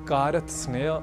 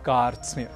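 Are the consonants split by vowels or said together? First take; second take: split; together. First: Vowels break up the consonant cluster. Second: The consonants are joined without any vowel. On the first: The speaker calls it wrong. "न कहकर" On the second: The speaker calls it right. "हमें कहना है कार्त्स्न्य"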